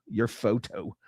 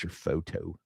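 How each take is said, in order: First: "Your" leaned on, falling after it; stress on YOUR. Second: Said in the usual way. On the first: Shown as a demonstration. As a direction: hit "Your" to point at whose photo. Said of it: "cracking a joke about your photo".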